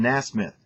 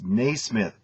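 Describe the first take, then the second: First: The name begins with a short 'nas' sound. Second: The name begins with a long 'nay' sound. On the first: The speaker calls it wrong. "you mispronounced. You called him Nasmith" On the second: The speaker calls it right. "It's Naismith, not Nasmith"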